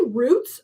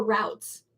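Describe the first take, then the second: First: Routes said as "roots", rhyming with boots; root pronunciation. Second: Routes said as "rowts", rhyming with outs; rout pronunciation. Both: Shown as a demonstration. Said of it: "do you say routes or routes?".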